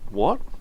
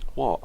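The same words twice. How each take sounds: First: It is said as a questioning what. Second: It is said flatly, not as a question.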